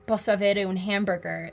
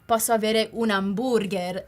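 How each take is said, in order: First: Hamburger is said with an English accent. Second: Hamburger is said with an Italian accent.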